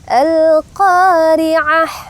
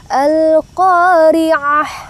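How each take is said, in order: No difference in how they are said.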